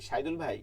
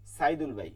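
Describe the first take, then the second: First: সাইদুল ভাই begun with a hushing "sh"; wrong SH version. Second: সাইদুল ভাই begun with a clean "s"; dental S. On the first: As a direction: say সাইদুল as "Shaidul", the version being questioned. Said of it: "সাইদুল বলি". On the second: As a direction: say সাইদুল as "Saidul", tongue at the teeth. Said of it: "দন্ত স এর উচ্চারণ". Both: Shown as a demonstration.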